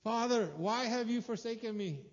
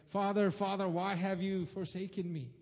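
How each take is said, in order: First: Crying out, high and loud; strained high cry from the cross; anguished cry. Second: Crying out in anguish, louder; a desperate call to the Father; raised, pained plea from the cross. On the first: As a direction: plead upward in despair. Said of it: "And he's like". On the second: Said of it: "he cries out". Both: Retold or imitated.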